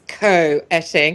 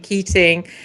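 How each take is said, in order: First: The name starts with a 'koh' sound. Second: The name starts with a 'kee' sound. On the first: The speaker calls it right. "no, it's Co-etting" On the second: The speaker calls it wrong. "I've been calling you Keating"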